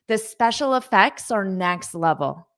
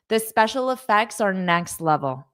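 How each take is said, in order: No difference in how they are said.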